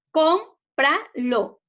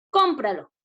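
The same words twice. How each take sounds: First: Cómpralo split slowly as com, pra, lo, pitched higher; syllable by syllable. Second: Said in the usual way. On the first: Shown as a demonstration. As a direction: say Cómpralo as three slow separate beats. (Cómpralo separado en sílabas, lento y con pausas) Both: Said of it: "Separemos en sílabas".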